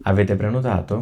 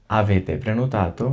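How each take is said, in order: First: First reading of Avete prenotato at normal pace; Italian question read for learners. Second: Avete prenotato said very slowly, word by word; slow repeat. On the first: Teacher reads Italian question to students. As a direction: model the question for trainee waiters. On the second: Teacher repeats the question slowly for students. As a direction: stretch it out so learners can follow. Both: Shown as a demonstration. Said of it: "এটা আমি দুইবার করে পড়বো".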